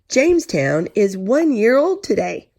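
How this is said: It is read with excitement, like an exclamation.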